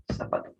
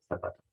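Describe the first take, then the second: First: "Zapato" with a clear s sound. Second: "zapato" with a soft s, quietly; Latin American way. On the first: Teacher showing the s in "Zapato". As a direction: say "Zapato" with s, not th. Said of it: "Zapato, con ese". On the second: Teacher showing the Latin American "zapato". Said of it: "En un caso americano". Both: Shown as a demonstration.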